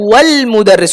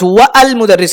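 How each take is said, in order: First: The 'a' of 'al' is dropped, giving 'wal'. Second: The 'a' of 'al' is pronounced separately after 'wa'. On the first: The speaker calls it right. "ওয়াও এর সাথে লামকে মিলিয়ে পড়তে হবে" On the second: The speaker calls it wrong. "হবে না"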